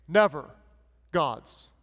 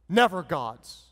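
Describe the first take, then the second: First: Never, pause, God's much lower; sarcastic pause. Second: Never punched then falling; sarcastic. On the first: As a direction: split it slowly, mock grave. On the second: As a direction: drop it flat, mock firm. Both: Acted. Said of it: "being sarcastic and saying the opposite".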